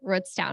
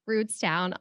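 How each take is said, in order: First: The name is said in the casual local way. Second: The name is said in the careful formal way. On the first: This is how the town's own people say it. "here in Rootstown, we say" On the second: This is the textbook way locals avoid. "We don't say ... it may be proper grammar to say Rootstown"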